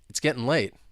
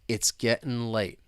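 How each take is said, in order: First: It is spoken fast. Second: It is spoken slowly. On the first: "let's say it faster" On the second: "let's say it slowly to begin with"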